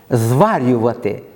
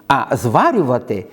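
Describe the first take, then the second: First: "Зварювати" said slowly, leaning on the stressed syllable; stressed reading. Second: Said in the usual way. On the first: Shown as a demonstration. Teacher repeating a dialect word to mark its stress, slow and deliberate. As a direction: draw out "Зварювати" so the stress is clear. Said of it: "Я підкреслюю наголос на, м, цей склад".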